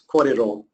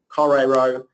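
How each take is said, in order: First: The r has the Māori sound. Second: The r sounds like an English r. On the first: The speaker calls it right. "an R is pronounced slightly differently" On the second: The speaker calls it wrong. "instead of saying"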